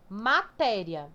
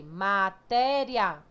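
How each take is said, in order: First: Said in the usual way. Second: MATÉRIA slowly split into syllables, louder on the middle; separated syllables. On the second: Shown as a demonstration.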